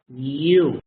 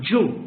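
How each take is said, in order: First: It begins with a soft y sound. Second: It begins with a hard j sound. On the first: The speaker calls it right. "it's U, soft, Y" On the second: The speaker calls it wrong. "It's not Ju, Ju is incorrect"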